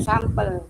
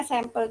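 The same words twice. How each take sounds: First: "sampel" pronounced SAM-pel, open ah. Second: "sampel" quoted as SEM-pel; sampel as sempel. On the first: Shown as a demonstration. Participant confirming the right reading, sampel with ah. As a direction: say "sampel" with first vowel ah. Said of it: "Dari tadi saya bilangin". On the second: Retold or imitated. Participant quoting what she kept hearing, sampel as SEM-pel. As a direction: say "sampel" with eh in the first syllable. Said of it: "dengarnya sampel terus".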